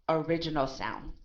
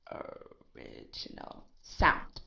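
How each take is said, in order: First: Said in the usual way. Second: Breathy whispered echo of original sound; whispered repeat. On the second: Shown as a demonstration. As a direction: whisper it back slowly, no voice. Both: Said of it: "that will keeps its".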